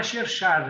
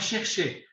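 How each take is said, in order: First: Cherchar with a Portuguese "-ar" ending, "sher-SHAR"; wrong made-up cherchar. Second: Chercher said the French way, both syllables "shehr-SHEH"; correct French chercher. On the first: Remembering his classroom mistake, mispronounced word. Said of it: "ninguém entendia o que era cherchar". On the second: Telling friends the real French word, said correctly. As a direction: give chercher its proper French ending "-cher". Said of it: "mas a gente não usa essa palavra". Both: Shown as a demonstration.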